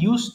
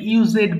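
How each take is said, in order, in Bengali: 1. শেষে কোনো অতিরিক্ত সিলেবল যোগ হয় না। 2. শেষে একটি অতিরিক্ত সিলেবল হিসেবে উচ্চারিত হয়। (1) "কিন্তু এটা কিন্তু ইউজড হবে" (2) "ভুল করে এটা ইউজেড বলে ফেলে"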